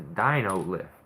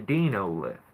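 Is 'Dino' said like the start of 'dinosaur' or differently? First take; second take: like dinosaur; differently. First: Dino is said like the start of dinosaur. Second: Dino is said unlike the start of dinosaur. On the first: The speaker calls it right. "It lifts your old dinosaur ass up into a tree" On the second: The speaker calls it wrong. "I'm pretty sure he's pronouncing it wrong"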